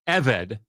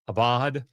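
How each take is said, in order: First: The middle consonant is a v sound. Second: The middle consonant is a b sound. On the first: The speaker calls it right. "Eved is how you pronounce the word slave" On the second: The speaker calls it wrong. "not ab, abad, abad"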